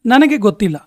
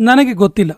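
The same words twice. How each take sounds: The two takes are said the same way.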